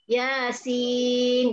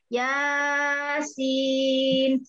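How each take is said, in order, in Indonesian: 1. Vokal kedua ditahan jauh lebih lama. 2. Vokal pertama ditahan terlalu lama. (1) "Karena sin dibacanya enam" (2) "Jadi nggak boleh dibaca Yasin. Salah"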